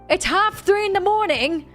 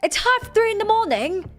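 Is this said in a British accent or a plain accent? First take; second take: plain; British. First: It is said in the speaker's ordinary accent. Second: It is said in a put-on British accent.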